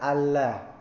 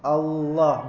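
First: The l is light and thin. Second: The l is heavy and full-mouthed. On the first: The speaker calls it wrong. "bukan Allah" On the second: The speaker calls it right. "tafkhim Allah"

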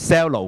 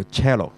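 First: The word begins with an s sound. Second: The word begins with a ch sound. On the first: The speaker calls it wrong. "咁你cello 咁咪錯咯" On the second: The speaker calls it right. "呢個更加個發音叫cello"

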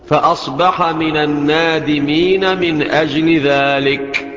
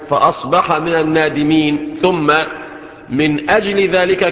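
First: The pause comes after 'min ajli dhalik'. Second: The pause comes before 'min ajli dhalik'. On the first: The phrase belongs to the preceding sentence. "وقف تام وتستأنف" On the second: The phrase belongs to the following sentence. "الوقف على رأس الآية"

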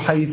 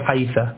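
First: The final consonant is followed by a u vowel. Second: The final consonant is followed by an a vowel. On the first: This is the form used by one group of Arabs. "هؤلاء يضمون الشفتين دائما عند الثاء" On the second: This is the form used by another group of Arabs. "وهؤلاء يفتحون الشفتين دائما عند الثاء"

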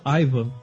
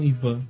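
First: The name has an American English pronunciation. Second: The name has a Brazilian Portuguese pronunciation. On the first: This is how Americans say the name. "eles falam Ivan" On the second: This is how the name is said in Brazil. "eles não falam Ivan"

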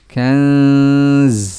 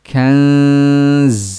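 First: The word ends with a sharp hissing z. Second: The word ends with a sharp hissing z.

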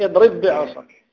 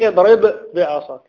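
First: The two b sounds merge into one doubled b. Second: The two b sounds are pronounced separately. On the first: The speaker calls it right. "يقول لك اضرب بعصاك" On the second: The speaker calls it wrong. "ما يقول لك اضرب بعصاك"

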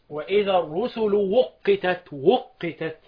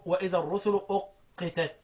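First: The last word begins with a w sound. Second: The last word begins with a glottal stop. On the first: This is one reader's variant. "قال لك وقتت واوه حلا، يبقى بالواو لمين؟ ابو عمرو" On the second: This is the other readers' variant. "وبالهمز باقيهم"

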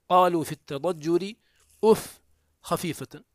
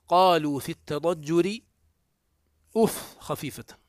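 Both takes have the same delivery.

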